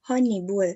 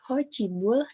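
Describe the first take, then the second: First: The second syllable starts with an n sound. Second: The second syllable starts with a ch sound. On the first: The speaker calls it right. "namun menjadi ho nibul" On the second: The speaker calls it wrong. "tidak menjadi ho cibul"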